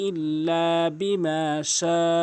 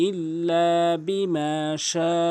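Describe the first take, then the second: Both takes have the same delivery.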